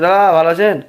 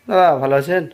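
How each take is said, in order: First: The greeting is spoken loudly and forcefully. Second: The greeting is spoken softly and quietly. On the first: The listener complains it implies they are hard of hearing. "একটু জোরে বলা হচ্ছে" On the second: The listener complains the words barely come out. "একটু আসতে যদি বলি"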